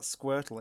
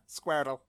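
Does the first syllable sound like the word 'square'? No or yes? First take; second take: No; Yes. First: The first syllable does not sound like 'square'. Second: The first syllable sounds like the word 'square'. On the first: The speaker calls it wrong. "It's not Squirtle" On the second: The speaker calls it right. "Like square. A square. Like the shape square"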